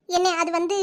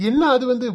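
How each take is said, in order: First: Trailing off unsure, dragging the words; stall, searching for an answer; hesitant stalling. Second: Mocking her stalling. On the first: Acted. Sister-in-law stalls when her brother demands answers, hesitant. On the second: Brother mocks his sister's stalling words, scornful mimicry. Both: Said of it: "அது வந்து, இது வந்துன்னு இழுக்கிற".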